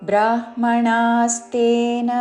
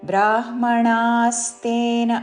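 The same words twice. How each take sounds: No difference in how they are said.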